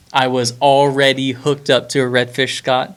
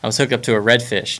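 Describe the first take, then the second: First: "already" drawn out and stressed. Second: Said in the usual way. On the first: Real, not acted. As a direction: lean hard on "already", teasing Scott. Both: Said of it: "Just wanna throw that in there".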